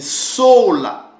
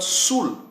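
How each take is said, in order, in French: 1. Ce sont deux syllabes qui se terminent par a. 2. C'est une seule syllabe avec la voyelle ou. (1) "la bonne prononciation, c'est sola" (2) "ça sera soit sol ou soit soul"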